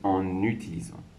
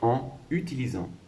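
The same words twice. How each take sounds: First: An n sound links the two words together. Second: The two words are said separately, without a linking n. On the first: "la liaison me fait prononcer en utilisant" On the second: "c'est en utilisant"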